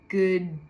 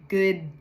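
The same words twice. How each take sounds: The two takes are said the same way.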